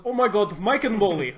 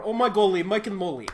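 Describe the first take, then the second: First: High, loud mock Russian yell; mock Russian exclamation; trampoline voice. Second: Higher, loud mock Russian cry; a hint of Russian excitement; trampoline voice. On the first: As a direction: blurt it out like the trampoline guy. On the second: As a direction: belt it like the trampoline guy. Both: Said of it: "in the trampoline voice".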